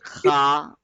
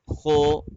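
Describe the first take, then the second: First: It is light, with a plain a vowel. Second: The lips are fully rounded, giving an o vowel. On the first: "which makes it a light letter, and that is also wrong" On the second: "They make their lips fully round, but this is wrong"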